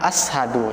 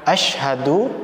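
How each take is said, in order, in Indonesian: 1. Konsonan tengahnya adalah 's' dan 'h' yang terpisah. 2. Konsonan tengahnya adalah satu bunyi 'sh'. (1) "jangan sampai kita ashadu" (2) "saya contohkan asyhadu"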